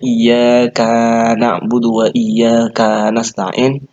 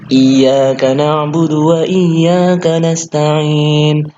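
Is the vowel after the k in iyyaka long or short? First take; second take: long; short. First: The vowel after the k is lengthened. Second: The vowel after the k is short. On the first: We are more eternal than you. The speaker calls it wrong. "kalau kalian panjangkan kaf" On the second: Only you we worship and only you we ask for help. The speaker calls it right. "kalau aslinya"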